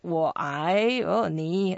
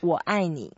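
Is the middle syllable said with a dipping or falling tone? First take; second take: dipping; falling. First: The middle syllable dips low then rises. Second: The middle syllable falls sharply from high. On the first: The speaker calls the listener short. The speaker calls it wrong. "you are so short. 我爱你. We don't say that" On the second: The speaker says they love the listener. The speaker calls it right. "use the fourth tone for I"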